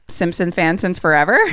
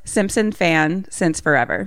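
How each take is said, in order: First: The phrase is said at a normal pace. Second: The phrase is said more slowly.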